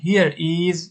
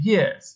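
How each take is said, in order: First: "here is" said as two separate words; full form. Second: "here's" run together as one word; contracted form. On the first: Teacher shows learners the long form, "here is" uncontracted. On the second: Teacher shows learners the short form, "here's" as one word. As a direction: say "here's" with the s joined straight on. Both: Shown as a demonstration.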